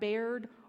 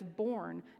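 First: The word sounds like bared. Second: The word sounds like born. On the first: The speaker calls it wrong. "not bared or bored" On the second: The speaker calls it right. "I learned that it's born"

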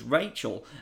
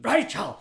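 First: The name is said in a plain voice. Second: The name is said in an impersonated voice. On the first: The speaker calls it wrong. "You've not said that correctly" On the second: The speaker calls it right. "you need to do it like Aaron Eckhart"

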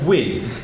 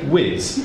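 First: The word ends with a soft th sound. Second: The word ends with a buzzing z sound. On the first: The speaker calls it right. "We say whiz. The sound is th" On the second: The speaker calls it wrong. "We do not say whiz"

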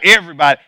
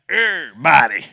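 First: The syllables are run together in a casual way. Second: Every syllable is pronounced fully and carefully. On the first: The speaker calls it wrong. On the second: The speaker calls it right.

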